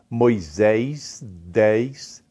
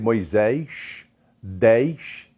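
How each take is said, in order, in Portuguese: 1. Fala-se com sotaque de Uberlândia. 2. Fala-se com sotaque de Juiz de Fora. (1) "Em Uberlândia, no Triângulo Mineiro, se diz" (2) "Já em Juiz de Fora, é comum ouvir"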